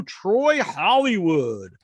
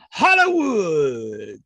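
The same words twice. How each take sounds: First: Said in the usual way. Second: Slow, drawn-out announcer call; mock ring announcer bellowing the name. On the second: Announcer echo of wrestler name.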